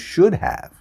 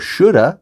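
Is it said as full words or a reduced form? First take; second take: full; reduced. First: The two words are said fully and separately. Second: The two words are blended into one reduced form.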